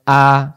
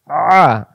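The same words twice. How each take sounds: First: Clean open "আ"; "আ" without throat pressure; hamza a. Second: "আ" pressed in the throat; pharyngeal, tightened "আ"; squeezed ain a. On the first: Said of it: "আবার এবার বানান ছাড়া". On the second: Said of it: "গলার ভিতরে চাপাচাপি হবে". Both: Shown as a demonstration.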